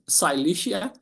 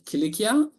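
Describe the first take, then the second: First: The name is said with an anglicized pronunciation. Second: The name is said with its original-sounding pronunciation.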